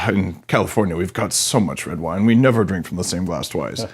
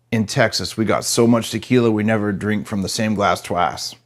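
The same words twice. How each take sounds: First: Californian. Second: Put-on a lightly done Texas accent, boasting and slowing at the end; a hint of a Texas accent in a bragging punchline; Texan boast. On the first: Retold or imitated. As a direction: lightly play a mellow wine-sipping Californian. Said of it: "the Californian's like". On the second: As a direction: brag like a big-hat Texan, mild Texas twang. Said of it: "the Texan says".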